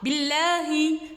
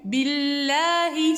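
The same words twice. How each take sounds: First: The l sound is short and clipped. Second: The l sound is held and drawn out. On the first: The speaker calls it wrong. "ce n'est pas billahi" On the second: The speaker calls it right. "Je retiens un petit peu la lettre pour laisser couler le son"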